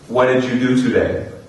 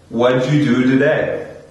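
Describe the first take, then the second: First: The words are lightly joined together. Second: What did is shrunk to one syllable. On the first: "on the first level of connected speech" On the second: "we can take this even a step further"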